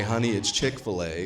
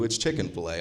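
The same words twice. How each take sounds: First: Said in the usual way. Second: Chicken-fil-A with a full "chicken"; defying his wife, mock Chicken-fil-A; mock mispronunciation. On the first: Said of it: "there's where my wife would say". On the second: Shown as a demonstration. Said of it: "Fuck you".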